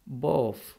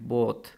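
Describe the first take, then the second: First: The word ends with an f sound. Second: The word ends with a th sound. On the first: "British accent में जो T H है ये convert हो जाता है, sound इसकी हमें आती है एफ़" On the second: "neutral accent में इसको इसी तरह अदा करते हैं"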